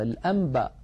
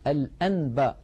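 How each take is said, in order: First: The sound before b is an m. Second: The sound before b is a clear n. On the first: The speaker calls it right. "يقلب النون الساكنة إذا أتى بعدها باء إلى ميم" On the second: The speaker calls it wrong. "ولا يقول الواحد"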